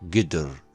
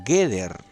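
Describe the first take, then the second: First: The first vowel is a short neutral schwa. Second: The first vowel is a full e. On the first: "quedaría con la vocal schwa así" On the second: "se encuentra vocalizada como Geder"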